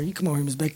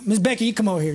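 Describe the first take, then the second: First: Much lower and softer, almost aside; soft call. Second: Said in the usual way. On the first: Acted. Calling Miss Becky up front, soft and low. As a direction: murmur the invitation gently.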